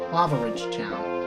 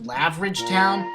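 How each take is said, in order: First: The start is said as two syllables, 'lava'. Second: The start is squeezed into one syllable, 'lav'. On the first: The speaker calls it right. "I realized it was pronounced Lava Ridge Town" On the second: The speaker calls it wrong. "I actually thought it was pronounced Lavridge Town"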